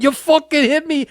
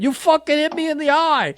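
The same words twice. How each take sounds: First: A lightly put-on Boston accent, higher. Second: Put-on thick Boston accent, much higher. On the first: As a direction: imitate Kevin's angry Boston accent, a touch higher. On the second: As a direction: imitate Kevin's Boston accent with a raised pitch. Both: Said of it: "with that Boston accent".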